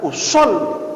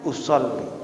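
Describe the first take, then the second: First: The word is said loudly and firmly. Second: The word is said quietly in a low voice. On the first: The intention is made clearly audible. "dengan ketegasan" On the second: The intention is still voiced, but quietly. "dengan suara yang rendah"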